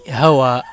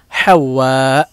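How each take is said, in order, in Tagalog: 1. Maikli at isa lang ang gitnang w sound. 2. Doble ang gitnang w sound at hinahawakan. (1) "Mali po yung hawa" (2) "Ha, waw, musyaddada, alif, hamza. Hawa"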